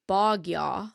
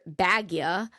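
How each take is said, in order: First: The first syllable has the vowel of 'bog'. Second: The first syllable has the vowel of 'bag'. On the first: The speaker calls it right. "but it's really Bogya" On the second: The speaker calls it wrong. "we called her Bagya"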